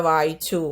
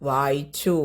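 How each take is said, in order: The two takes are said the same way.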